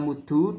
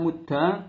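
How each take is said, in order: First: The word ends in an u vowel. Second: The word ends in an a vowel. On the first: "bisa dibaca muddu dengan domah" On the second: "bisa dengan fathah mudda"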